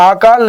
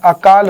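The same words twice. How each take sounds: First: अकाल said as आकाल, long first आ; incorrect long vowel. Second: अकाल with short opening अ; correct short vowel. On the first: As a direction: stretch the opening vowel of अकाल to आ. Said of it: "अकाल नहीं होता है". (अकाल का पहला स्वर लंबा आ) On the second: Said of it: "अकाल होता है". (अकाल का पहला स्वर छोटा अ) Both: Shown as a demonstration.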